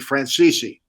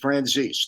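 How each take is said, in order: First: The name is said the Italian way, three syllables. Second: The name is said the American way, two syllables.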